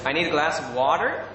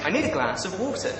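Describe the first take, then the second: First: American accent with hard R in "water". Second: Said in the usual way. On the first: Shown as a demonstration. Brit trying requested phrases, attempted American accent. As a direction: put on an American "wah-der". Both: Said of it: "my best American accent".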